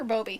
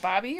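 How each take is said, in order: First: Bobby with a long O in the first syllable; pronounced BOH-bee. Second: Said in the usual way. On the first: Shown as a demonstration. Host offering the other pronunciation to a viewer, Bobby as BOH-bee. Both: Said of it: "Is it Bobby or Bobby?".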